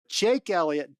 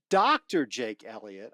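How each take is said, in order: First: Said in the usual way. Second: Doctor given the weight, set lower and deliberate; correcting himself to add Doctor to Jake Elliott; stress on Doctor. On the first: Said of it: "Doctor Jake Elliott, I might add". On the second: Shown as a demonstration. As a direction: make a point of the title Doctor. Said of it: "I might add".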